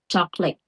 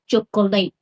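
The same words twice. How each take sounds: First: The word is said in two syllables. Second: The word is said in three syllables. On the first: The speaker calls it right. "So this is two cell, only two cell" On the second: The speaker calls it wrong. "I speak wrong this word. I say chocolate"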